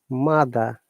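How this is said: The final R sound is dropped. "This is British English"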